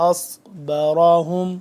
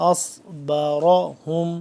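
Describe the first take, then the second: No difference in how they are said.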